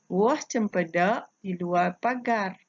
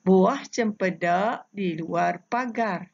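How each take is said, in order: First: Said in the usual way. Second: Slow, measured reading of the pantun line; pantun recitation. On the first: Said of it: "Ikut bersama-sama cikgu membaca". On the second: Shown as a demonstration. Teacher modelling a pantun line for pupils, slow recitation. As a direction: lay each word out slowly for pupils to copy. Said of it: "cara cikgu membaca pantun ini".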